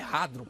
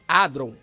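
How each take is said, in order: First: The initial H is sounded. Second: The initial H is silent. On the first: "tem um acento ali no A" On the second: "o H pode ser mudo"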